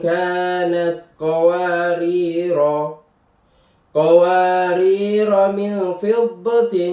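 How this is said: The voice stops after the first qawarira. "ketika dibaca diwakafkan"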